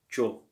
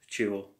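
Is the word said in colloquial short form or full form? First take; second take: colloquial; full. First: The word is said in a short one-syllable form. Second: The word is said in its full two-syllable form. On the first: "they just say чё. Usually they just in colloquial Russian" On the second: "the Russian speakers usually they don't say чего"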